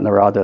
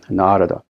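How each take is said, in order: First: The first vowel is short. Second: The first vowel is long. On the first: The speaker calls it wrong. "It's not Narada" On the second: The speaker calls it right. "The first A is long"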